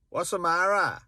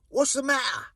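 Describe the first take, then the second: First: It is said in a Welsh accent. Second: It is said in a Cockney London accent. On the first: "Whereas in Wales" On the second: "Or maybe in Cockney London"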